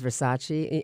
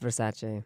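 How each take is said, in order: First: The name ends with a 'chee' sound. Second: The name ends with a 'chay' sound. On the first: This is how most people say it. The speaker calls it wrong. "Everyone says Versace, and so did I" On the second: This is how the family says it. The speaker calls it right. "I was told it's Versace"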